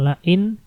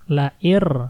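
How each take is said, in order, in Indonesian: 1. Kata itu berakhir dengan bunyi n. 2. Kata itu berakhir dengan bunyi r. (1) "Bukan la'in" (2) "Nunnya hilang. Masuk langsung ke ro"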